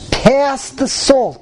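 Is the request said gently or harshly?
harshly. It is said bluntly and forcefully. This is an ordinary weekday manner of speaking. "you can give a clap on the table"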